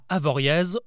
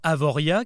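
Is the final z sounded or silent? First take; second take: sounded; silent. First: The final z is sounded. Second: The final z is silent. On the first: The speaker calls it wrong. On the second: The speaker calls it right.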